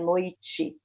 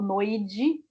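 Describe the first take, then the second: First: The middle consonant is a voiceless t sound. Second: The middle consonant is a voiced d sound. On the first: The speaker calls it right. "é noite" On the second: The speaker calls it wrong. "noide ou noide, não tem"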